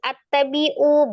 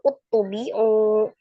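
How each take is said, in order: First: The word begins with an a vowel. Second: The word begins with a u vowel.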